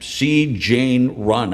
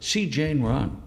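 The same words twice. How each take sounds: First: It is read in a flat, dull way. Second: It is read in a lively, dramatic way.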